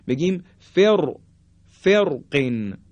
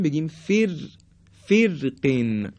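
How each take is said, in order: First: فرقن with a full, heavy ر, said slowly; thick ر in فرقن; heavy R option. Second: فرقن with a thin ر, vowel like 'fir', said slowly; light R option. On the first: Teacher shows the heavy reading of the word. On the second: Teacher shows the light reading of the word. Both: Shown as a demonstration.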